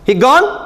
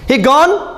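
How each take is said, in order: First: It is said as a question. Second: It is said as a question.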